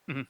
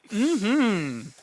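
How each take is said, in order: First: It is said flatly, without enthusiasm. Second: It is said with excited, lively enthusiasm.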